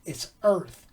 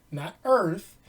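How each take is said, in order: First: Earth with a clear th ending, soft and corrective; proper Earth with th. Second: Earth said as "Erf" with an f ending; mock "Erf" for Earth; wrong Earth. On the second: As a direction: Earth with the th turned into f, mocking. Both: Shown as a demonstration.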